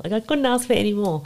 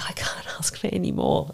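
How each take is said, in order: First: Said in the usual way. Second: Soft, unvoiced, hushed; whispered gratitude. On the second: Telling the host what she felt holding the baby, a whisper. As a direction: breathe it out, overwhelmed.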